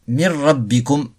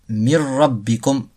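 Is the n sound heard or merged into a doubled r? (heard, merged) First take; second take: merged; merged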